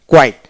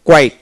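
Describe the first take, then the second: No difference in how they are said.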